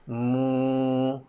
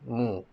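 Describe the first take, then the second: First: The vowel is drawn out long. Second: The vowel is said short. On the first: "kita akan tambah lagi satu huruf u kat belakang, jadi mu" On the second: "Baris depan tadi bunyi dia mu"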